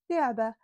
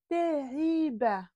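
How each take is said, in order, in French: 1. Le mot est dit rapidement, avec des voyelles écourtées. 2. Les voyelles sont prononcées pleinement et clairement.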